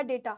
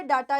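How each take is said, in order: First: डेटा as "DAY-ta"; correct vowel. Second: डेटा as "DAA-ta", long A; wrong vowel. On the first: Teacher gives the proper form, डेटा said "DAY-ta". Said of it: "डेटा होता है". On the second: Teacher gives the common form, डेटा said "DAA-ta". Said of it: "ये डेटा नहीं होता". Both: Shown as a demonstration.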